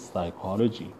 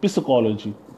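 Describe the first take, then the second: First: The initial P sound is silent. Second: The initial P sound is pronounced. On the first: The speaker calls it right. "It means P is silent" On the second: The speaker calls it wrong. "otherwise you would speak it psychology wrong"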